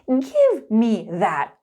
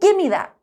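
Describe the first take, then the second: First: It is said at a slower, careful pace. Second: It is said at a quicker, connected pace.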